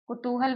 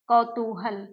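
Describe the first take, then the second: First: The first syllable has a short 'u' vowel. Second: The first syllable has an 'au' vowel. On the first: "कुतूहल भी इसको कह सकते हैं" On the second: "कौतूहल शब्द क्या है?"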